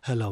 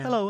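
First: The voice is at a low, ordinary pitch. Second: The voice is at a raised, high pitch. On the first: The speaker calls it wrong. "you don't go up to a 6-month-old and go" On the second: The speaker calls it right. "You kind of raise your voice"

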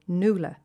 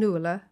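First: The middle vowel is a plain 'oo', like hula. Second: The middle vowel is a gliding diphthong 'ua'. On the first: The speaker calls it wrong. "we say Nuala, to rhyme with hula" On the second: The speaker calls it right. "that neat diphthong wedged in the centre of the word"

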